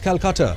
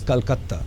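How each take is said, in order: First: The name is said with an English-style pronunciation. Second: The name is said with a Hindi-style pronunciation. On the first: This is the city of the anglicized elite. "which is the world of the anglicized" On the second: This is the city of migrants from elsewhere in India. "this is the world of the non Bengalis"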